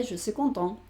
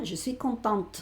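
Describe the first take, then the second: First: "content" ending on the nasal vowel, no T heard; silent final T. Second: "contente" with the last T clearly pronounced; sounded final T. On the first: Teacher showing what a boy would say, silent T in "content". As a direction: leave the T off the end of "content". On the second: Teacher showing what a girl would say, sounded T in "contente". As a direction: finish "contente" on an audible T. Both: Shown as a demonstration. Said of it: "esta T suena".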